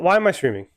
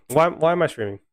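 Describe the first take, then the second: First: Higher, whiny stress on I in "why am I streaming?"; self-pitying "why am I streaming?" with the weight on I; exasperated whine. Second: Higher whine, "why" doubled and punched; fed-up "Why, why am I streaming?" with stress on why; exasperated whine. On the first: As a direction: groan it out, fed up with the team. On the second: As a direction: plead to the sky, hitting "why" both times. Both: Real, not acted. Fan venting at own team.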